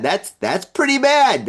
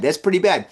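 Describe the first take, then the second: First: High, emphatic exclamation; emphatic judgement. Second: Said in the usual way. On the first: Acted. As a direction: push the verdict up high. Emphatic take, then toned down.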